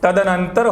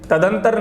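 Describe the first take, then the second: First: The word is said as ta-da-nan-tar, four syllables. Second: The word is said as ta-dan-tar, three syllables. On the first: The speaker calls it right. "तदनंतर होता है" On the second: The speaker calls it wrong. "तदंतर नहीं होता"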